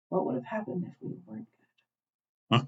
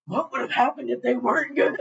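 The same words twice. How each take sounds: First: Put-on small, high, hushed child's voice; little girl. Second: High-pitched, laughing outburst; incredulous reaction. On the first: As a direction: softly imitate a little girl asking her brother. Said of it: "the little girl, who hasn't said a damn thing". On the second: Retold or imitated. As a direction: echo it in a high, giggly squeal. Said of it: "I'm just like".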